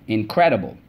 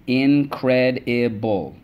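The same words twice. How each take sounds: First: Said in the usual way. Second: "incredible" stretched slowly as in-cred-i-ble; syllable by syllable. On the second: Shown as a demonstration. Teacher reviewing words with the class, slowly syllable by syllable. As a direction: tap "incredible" out slowly, one syllable at a time. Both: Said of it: "Let's go".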